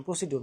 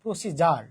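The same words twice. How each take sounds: First: প্রসিডিউর said with a d sound and a soft, dropped voice; wrong pronunciation. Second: প্রসিজার with a j sound, said firmly; correct pronunciation. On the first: Teacher recalling his exam mistake, quietly saying the wrong form. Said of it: "কি বলছিলাম?". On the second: Teacher to students giving the correct form. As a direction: say প্রসিজার with a clear j. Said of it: "এটা কি হবে?". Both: Shown as a demonstration.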